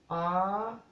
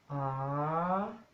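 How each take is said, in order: First: It is said on a high tone. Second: It is said on a rising tone. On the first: "tono alto" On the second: "tono creciente"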